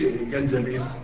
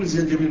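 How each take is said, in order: First: The word begins with a j sound. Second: The word begins with a z sound. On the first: The speaker calls it wrong. "ما تقولش جنزبيل" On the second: The speaker calls it right. "وتقول الزنجبيل"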